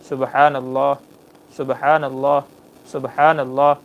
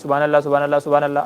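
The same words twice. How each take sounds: First: It is recited slowly with pauses. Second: It is recited quickly without pauses. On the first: The speaker calls it right. "इस तरीके से ... आराम आराम से ठहर करके पढ़िए" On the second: The speaker calls it wrong. "वो बड़ी तेज़ होती है, ... आदमी ऐसे पढ़ता है, ऐसे नहीं।"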